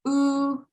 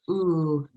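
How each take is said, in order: First: The vowel has a high pitch. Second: The vowel has a plain, unraised pitch. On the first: "the high tone will be said" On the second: "when you're first starting out as like"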